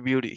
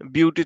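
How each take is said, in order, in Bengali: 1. মাঝের ব্যঞ্জনটি নরম d-এর মতো শোনায়। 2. মাঝের ব্যঞ্জনটি একটি স্পষ্ট t ধ্বনি। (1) "টিটার ডি উচ্চারণ হবে" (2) "এটা কিন্তু বিউটি তোমরা উচ্চারণ করো"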